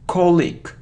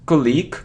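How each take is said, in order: First: The stress is on the first syllable. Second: The stress is on the second syllable. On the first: The speaker calls it right. "the stress is on the first syllable" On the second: The speaker calls it wrong. "It isn't colic"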